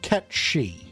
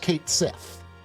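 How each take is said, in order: First: The name is said ending in 'shee'. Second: The name is said ending in 'sith'. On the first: This is the original Gaelic pronunciation. "whose name is actually pronounced Ketshi" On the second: This is how the games' audience knows it. "And know them as Cait Sith"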